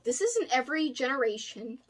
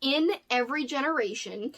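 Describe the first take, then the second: First: This is in Every Generation run together and slurred; garbled, run-together title read; mashed-up title. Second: Careful, corrected title read; clear re-say. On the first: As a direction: rush This is in Every Generation so the words blur. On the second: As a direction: say In Every Generation again, each word separate. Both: Shown as a demonstration. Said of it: "that sounded, like, weird and mashed up".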